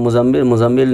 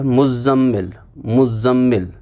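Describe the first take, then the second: First: Quick मुज़म्मिल with a single short z; wrong name pronunciation. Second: मुज़म्मिल with a firm doubled z; correct name pronunciation. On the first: Teacher warning how not to say the name, मुज़म्मिल with short z. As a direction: rush through मुज़म्मिल without doubling the z. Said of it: "ऐसे नहीं बोलना चाहिए". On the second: Teacher showing the right way for the name, मुज़म्मिल with doubled z. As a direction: split मुज़म्मिल as muz-zammil, pressing the z. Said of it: "सही तरीका है". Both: Shown as a demonstration.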